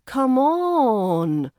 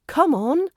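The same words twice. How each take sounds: First: Drawn-out, louder "on" that falls away; exasperated, stretched-out plea; annoyed. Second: Short, higher, louder rallying "come on"; encouraging. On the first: Teacher contrasting tones of come on, annoyed and impatient. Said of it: "that's more annoyed". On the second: Teacher contrasting tones of come on, encouraging. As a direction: lift it brightly to urge someone on. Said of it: "that's more encouraging". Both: Shown as a demonstration.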